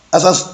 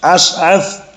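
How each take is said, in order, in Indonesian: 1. Ada dua bunyi s biasa. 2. Ada bunyi sh, lalu bunyi th. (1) "bukan asas" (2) "pertama shin, kedua sa"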